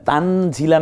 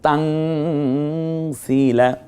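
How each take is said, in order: First: The vowel after z is short. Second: The vowel after z is lengthened. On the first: The speaker calls it wrong. "তানজিলা না বলে" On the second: The speaker calls it right. "জেরের পরে ইয়া সাকিন এক লিপ টেনেও বলবো"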